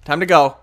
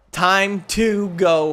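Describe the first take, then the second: First: Said in the usual way. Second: Slow drawn-out. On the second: Shown as a demonstration. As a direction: stretch every word out very slowly. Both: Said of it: "repeated slowly".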